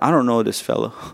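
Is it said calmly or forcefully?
calmly. It is said calmly, without emotion.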